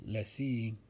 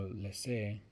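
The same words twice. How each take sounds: First: "Lecce" said as "leh-see"; louder "Lecce" with a final ee; alternate pronunciation. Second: "Lecce" said as "leh-say"; "Lecce" corrected to a final ay; alternate pronunciation. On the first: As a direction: end "Lecce" on a long ee. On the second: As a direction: end "Lecce" on an ay sound. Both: Shown as a demonstration. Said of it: "I don't know how to pronounce that one".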